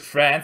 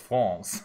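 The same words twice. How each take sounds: First: It is said with an English pronunciation. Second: It is said with a French pronunciation. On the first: The speaker calls it wrong. "not just France" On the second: The speaker calls it right. "I always have to pronounce it in, in a French way"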